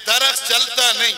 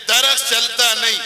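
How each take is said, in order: Both takes have the same delivery.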